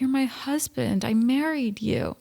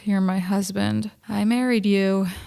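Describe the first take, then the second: First: She sounds warm and reassuring. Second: She sounds resigned and regretful. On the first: She is reassuring him. "And not like" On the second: She regrets the decision. "it sounds more like she is mourning that decision"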